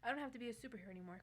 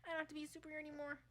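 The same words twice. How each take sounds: First: It is said in the reader's normal voice. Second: It is said in Melvin's character voice.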